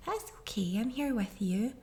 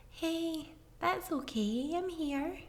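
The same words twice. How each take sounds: First: Said in the usual way. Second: Put-on higher, softer, tender hush to a crying child; soothing comfort. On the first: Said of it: "try saying". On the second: Shown as a demonstration. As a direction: coo it gently like holding a child. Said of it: "hug them and hold them and say".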